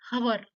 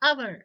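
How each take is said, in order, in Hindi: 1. इस शब्द की शुरुआत में साफ़ सुनाई देने वाली h की आवाज़ है। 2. इस शब्द की शुरुआत एक स्वर से होती है, h की आवाज़ नहीं है। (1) "नॉट हवर" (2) "एच क्या हो रहा है यहाँ पे? साइलेंट हो रहा है"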